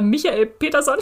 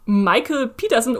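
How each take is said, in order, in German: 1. Der Name wird deutsch ausgesprochen. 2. Der Name wird englisch ausgesprochen.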